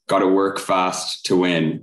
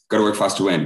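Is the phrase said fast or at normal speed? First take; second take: normal speed; fast. First: It is said at a normal speed. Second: It is said really quickly.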